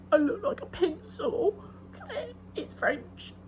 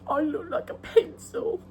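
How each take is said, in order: First: High, laughing-crying delivery of the quote; hammed-up tearful whine; Fleabag quote. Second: High, laughing-crying whine; Fleabag quote. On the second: Retold or imitated. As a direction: play the tearful complaint for laughs. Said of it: "She goes".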